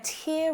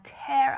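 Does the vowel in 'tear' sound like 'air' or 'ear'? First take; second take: ear; air. First: The vowel sounds like the one in 'ear'. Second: The vowel sounds like the one in 'air'. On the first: A drop of water from the eye. "a tear comes down near your ear" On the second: To rip something apart. "you're holding it up in the air"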